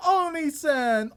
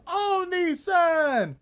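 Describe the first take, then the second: First: Said in the usual way. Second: Long, high, slow Oni-san with a falling end; drawn-out anime call. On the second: Shown as a demonstration. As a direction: stretch out Oni-san slowly, sing-song.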